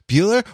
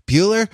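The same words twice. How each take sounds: The two takes are said the same way.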